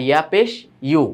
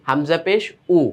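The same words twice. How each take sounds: First: ইউ begun with a clear y, as yoo; pressed y glide. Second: Said in the usual way. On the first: Shown as a demonstration. Teacher contrasting ইয়া with হামজা for pupils, pressed y glide. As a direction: press the y at the start of ইউ. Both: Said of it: "হামজা আর ইয়ার পার্থক্য".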